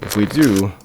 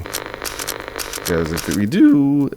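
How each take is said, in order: First: Said in the usual way. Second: Voice crack. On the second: Real, not acted. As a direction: voice cracking mid-phrase. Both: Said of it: "oh, voice crack".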